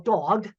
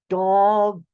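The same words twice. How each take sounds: First: The word is said at normal speed. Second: The word is said slowly, sounds drawn out.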